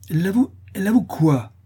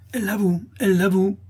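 First: High, loud, alarmed question; half-frightened cry. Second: High, indignant crowd cry; wrathful outcry. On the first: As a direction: demand an answer, half afraid to hear it. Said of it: "s'écria madame Dubreuil à demi effrayée de l'aveu". (cri à demi effrayé) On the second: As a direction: shout the accusation in outrage. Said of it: "s'écrièrent les laboureurs courroucés". (clameur courroucée) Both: A narrator's reading.

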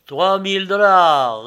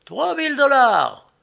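First: Loud, slow, drawn-out official call; auctioneer repeating. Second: Very high, loud head-turning cry; shouted bid. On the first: Agent repeats the newcomer's bid, loud auctioneer call. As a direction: sing the bid back to the room. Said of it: "répéta l'agent". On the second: Newcomer outbids the hatter from the crowd, high shout. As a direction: burst in over everyone with the bid. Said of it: "cria une voix qui me fit tourner la tête". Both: A narrator's reading.

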